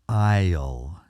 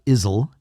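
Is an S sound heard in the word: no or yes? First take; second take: no; yes. First: No S sound is pronounced before the L. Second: An S sound is pronounced before the L. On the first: The speaker calls it right. "it's isle. You don't pronounce the S" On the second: The speaker calls it wrong. "It's not isle"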